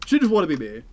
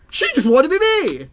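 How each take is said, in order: First: Said in the usual way. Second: Much higher, louder outburst; loud exclamation. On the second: Real, not acted. Streamer ranting about a chatter, high loud outburst.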